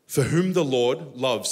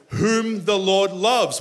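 First: Slow, deliberate reading of the verse. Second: Much louder and higher, slow, leaning on loves; emphatic reading. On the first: Pastor reading the verse to the congregation, slowly and deliberately. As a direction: read it slowly, leaning on loves. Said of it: "say loves". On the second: Pastor proclaiming the verse loudly to the church. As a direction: proclaim it, loving every word. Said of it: "One more time". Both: Shown as a demonstration.

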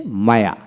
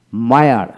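First: "মায়া" with no final r; non-rhotic British "মায়া"; British pronunciation. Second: "মায়ার" with the final r sounded; American pronunciation. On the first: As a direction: say "মায়া" the British way, ending on an open vowel. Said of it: "ব্রিটিশে মায়া". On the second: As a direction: say "মায়ার" ending on an audible r. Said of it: "আর উচ্চারণ সেখানে হবে". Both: Shown as a demonstration.

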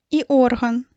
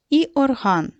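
First: Орган stressed on ОР-; stress on first syllable. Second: Орган stressed on -ГАН; stress on second syllable. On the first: Teacher showing another possible word, орган stressed on ор-. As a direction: say орган as OR-han, the body part. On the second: Teacher reading words from the list, орган stressed on -ган. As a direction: say орган as or-HAN, the instrument. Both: Shown as a demonstration. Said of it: "поставити по-різному наголос".

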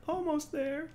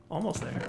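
First: "Almost there" much higher, rising at the end; high squeaky rise. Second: Said in the usual way. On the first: Shown as a demonstration. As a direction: squeak it up hopefully.

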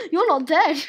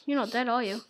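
First: Loud mock-outraged cry; loud, playful protest; playful exclamation. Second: Said in the usual way. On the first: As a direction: call it out loudly, as a discovery. Exclaims at friend still alive.

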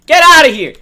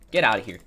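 First: High, loud chase-off yell; shouted get out. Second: Said in the usual way. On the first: Real, not acted. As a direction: yell to drive them off.

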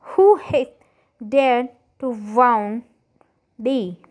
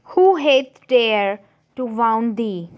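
First: Angry. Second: Cried out. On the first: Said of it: "his face to grew red with anger". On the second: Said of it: "cried the Giant". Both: A narrator's reading.

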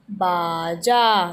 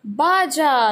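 First: बाजा stretched very slowly, both syllables held; slow drawn-out word. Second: Said in the usual way. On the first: Shown as a demonstration. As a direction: draw out बाजा for the class. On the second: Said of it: "यह क्या है?".

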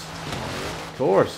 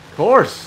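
First: Resigned whisper under the breath. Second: Loud exasperated outburst; exasperated shout. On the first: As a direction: whisper it to yourself. Repeats it after the crash. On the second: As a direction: yell it in frustration. Car crash, exasperated outburst. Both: Real, not acted.

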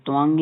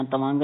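First: ਤਵੰਗ said "tu-vang"; "tuvang" with nasal ending for ਤਵੰਗ; "tuvang" pronunciation. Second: ਤਵੰਗ said "ta-vang"; "tavang" without any u sound in ਤਵੰਗ; mistaken "tavang". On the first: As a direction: give ਤਵੰਗ a short "u" after the t. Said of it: "ਤੱਤੇ ਔਂਕੜ". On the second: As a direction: give ਤਵੰਗ a short "a" after the t. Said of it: "ਨਹੀਂ ਪੜ੍ਹਨਾ". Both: Shown as a demonstration.

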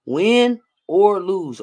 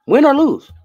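First: Very slow, each word stretched; slow emphasis. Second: High, loud exclamation; emphatic call. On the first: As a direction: spell it out slowly for him. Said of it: "Say it with me". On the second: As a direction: belt it out to reassure him. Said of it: "that's what I need you to know". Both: Real, not acted.

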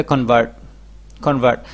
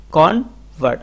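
First: Said in the usual way. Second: "convert" as kon, pause, vart; split in two. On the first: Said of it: "একত্রিত করে দিতে". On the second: Shown as a demonstration. Teacher showing word number two, split in two. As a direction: break "convert" into two syllables. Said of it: "আপনাকে এটা আলাদা করতে হবে".

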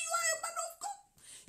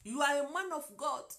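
First: Much higher and louder, a triumphant cry; exalted, ringing French-accented English; soaring proclamation. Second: Put-on French-accented English said close to her own voice; simple French-accented English, almost plain; lightly accented English phrase; broken English. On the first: Retold or imitated. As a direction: shout it out as a blessing. Repeats it, proclaiming. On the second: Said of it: "avec mon anglais bien déformé".

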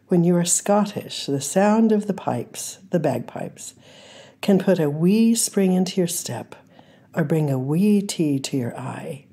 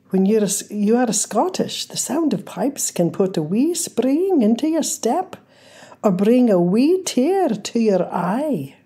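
First: Said in the usual way. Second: Playful, amateur Scottish accent, pitched higher; attempted Scottish accent. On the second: Shown as a demonstration. Reading a Scottish quote to her listeners, in a playful attempted Scottish accent. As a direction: have a go at a Scottish lilt, just for fun. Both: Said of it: "this is not a, an actual Scottish accent".

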